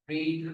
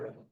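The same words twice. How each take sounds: First: The vowel is long, like 'reed'. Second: The vowel is short, like 'red'. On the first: It is the present form of the verb. "the pronunciation will be different" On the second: It is the past participle of the verb. "Pronunciation इसकी रैड होगी"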